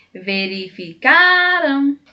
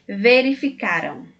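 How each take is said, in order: First: "Verificaram" with CA stretched long, high and loud; calling out CA. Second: Said in the usual way. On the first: Shown as a demonstration. Teacher showing how to find the tonic syllable, CA called out long in "Verificaram". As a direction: call the word "Verificaram", holding CAAA. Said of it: "estratégia de cantar ou chamar a palavra".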